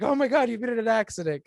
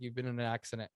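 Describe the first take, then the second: First: Much higher and louder, a mother's alarmed cry; panicked mom. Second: Said in the usual way. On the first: Retold or imitated. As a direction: play the mother who always fears the worst. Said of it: "my mom, she's always like". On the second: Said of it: "she's like".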